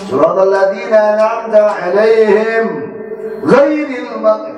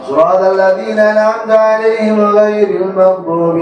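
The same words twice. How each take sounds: First: There is a pause after alaihim. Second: It runs on without a pause after alaihim. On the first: The opening formula is not counted as the first verse. "Kenapa diputus?" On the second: The opening formula counts as the first verse. "mesti wasal"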